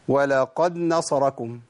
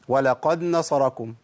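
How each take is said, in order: Both takes have the same delivery.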